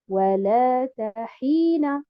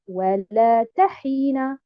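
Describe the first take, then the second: First: The stress falls on the 'la' syllable. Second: The stress falls on the 'ta' syllable. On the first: The speaker calls it right. "je mets un abr sur harakat al-lam et un abr sur harakat al-ha" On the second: The speaker calls it wrong. "et non pas sur harakat al-ta"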